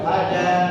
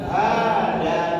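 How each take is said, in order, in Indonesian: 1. Vokal pertama pendek. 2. Vokal pertama dipanjangkan. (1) "Haknya pendek"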